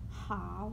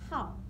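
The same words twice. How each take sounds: First: The pitch dips low and then rises. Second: The pitch falls sharply from high to low. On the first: The word means good. "It has the third tone here" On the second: The word means number. "when you change the tone mark from third tone to last tone"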